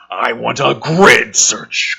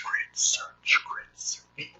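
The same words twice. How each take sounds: First: Mock commanding order. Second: Spooky whisper of grid search; whispered echo. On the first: Commander orders, read slowly. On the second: Pretend. Mocking the commander's order, whispered echo. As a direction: whisper it back like a fading echo.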